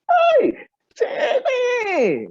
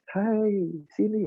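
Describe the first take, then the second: First: It is shouted loudly. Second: It is said at normal, soft volume.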